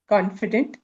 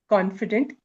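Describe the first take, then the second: No difference in how they are said.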